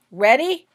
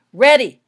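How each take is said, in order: First: "Ready?" called loud and high with a rise; loud question. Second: "Ready!" shouted very loud, falling firmly; shouted answer. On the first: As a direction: check the team is set over the noise. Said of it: "he asked the Weasleys". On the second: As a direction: bark back the confirmation. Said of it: "they shouted back". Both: A narrator's reading.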